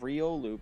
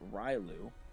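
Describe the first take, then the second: First: The name is said with three syllables. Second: The name is squeezed into two syllables. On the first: The speaker calls it right. "screws up the name" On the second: The speaker calls it wrong. "by saying Rylu"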